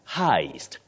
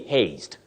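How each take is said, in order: First: The vowel sounds like 'eye', as in 'high'. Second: The vowel sounds like 'ay', as in 'day'. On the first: The speaker calls it right. "You say heist" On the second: The speaker calls it wrong. "This word is not pronounced as haste, the way it is spelled"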